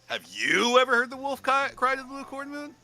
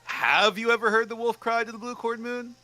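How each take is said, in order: First: "cry" repeated and pitched up; stress on cry. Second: "ever" leaned on, pitched higher; stress on ever. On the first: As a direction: lean into "cry" with a restart. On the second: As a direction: hit the word "ever" first. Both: Shown as a demonstration. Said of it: "changes depending on what word you emphasize".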